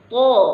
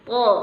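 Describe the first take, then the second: First: The vowel is said with lips rounded forward. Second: The vowel is said with unrounded, relaxed lips. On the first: The speaker calls it wrong. "kita tidak boleh menyebutkannya dengan to" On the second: The speaker calls it right. "Dia seperti biasa aja"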